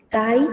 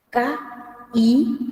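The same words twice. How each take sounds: First: Kai as one run, KA-i, weight on the A; unbroken KAH-i, front-stressed. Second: Ka-i split by a clear pause; pause between syllables. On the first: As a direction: hit the A of Kai and glide into the i. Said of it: "se carga la voz". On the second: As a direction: break ka-i in two, stopping before the i. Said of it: "se pronuncia con pausa". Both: Shown as a demonstration.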